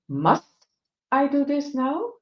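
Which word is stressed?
must. The stress falls on the word must.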